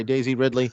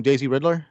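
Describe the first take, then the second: First: Ridley said properly, RID-lee; owning the slip, landing Ridley right; corrected name Ridley. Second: Ridler said with a d-l, like the villain Riddler; mispronouncing Ridley as Ridler; wrong name Ridler. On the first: Guest apologizes and says Ridley correctly. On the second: Guest stumbles on the actress's surname, says Ridler. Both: Real, not acted. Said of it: "Daisy Ridley, yeah".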